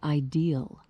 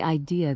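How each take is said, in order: First: The word ends with an added L sound. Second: The word ends without an added L sound.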